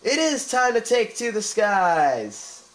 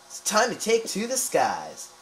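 First: Very slow, higher, louder grand proclamation; slow, soaring shout of "it is time to take to the skies"; triumphant slogan. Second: Slow, higher, grand proclamation; slow, lofty reading of "It's time to take to the skies"; dramatic quote read. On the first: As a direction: boom it out like a hero's battle cry. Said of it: "maybe that should be my channel title". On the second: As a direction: declaim it like an epic tagline. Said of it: "Sounds like a good quote". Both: Shown as a demonstration.

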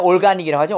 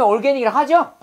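First: "organic" with an A vowel, "ol-GA-nik"; alternative pronunciation. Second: "organic" with an E-like middle vowel, "or-GE-nic"; modern pronunciation. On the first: Teacher contrasting for class, "organic" with an AH middle vowel. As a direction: say "organic" Korean-style as ol-ga-nik. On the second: Teacher showing class today's pronunciation, "organic" with an E sound. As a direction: say "organic" as or-GEN-ic, Korean ending after it. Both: Shown as a demonstration. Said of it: "근데 요즘에 organic이라 하죠".

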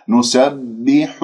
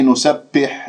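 First: نسبح slowed, ح rounded; corrected take; careful slow take. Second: نسبح said short; first take; quick plain take. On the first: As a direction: model نسبح slowly. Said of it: "نضم الشفاه في الحاء". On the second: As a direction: say نسبح lightly. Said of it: "لا، نسبح". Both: Shown as a demonstration.

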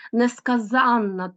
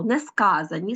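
First: Несказанна stressed on -ZAN-; stress on the suffix. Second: Несказані stressed on -SKA-; stress on the root. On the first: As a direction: say несказанна as ne-ska-ZÁN-na. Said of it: "тут наголошений суфікс". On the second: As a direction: say несказані as ne-SKÁ-za-ni. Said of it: "найчастіше наголос падає на корінь". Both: Shown as a demonstration.

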